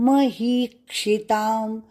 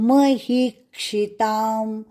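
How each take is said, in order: No difference in how they are said.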